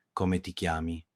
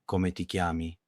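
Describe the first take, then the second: No difference in how they are said.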